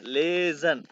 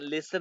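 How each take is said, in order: First: The middle consonant is a buzzing z sound. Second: The middle consonant is a hissing s sound. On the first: The speaker calls it right. "ले ज़ेड के बाद लेज़न" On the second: The speaker calls it wrong. "लेसन नहीं है"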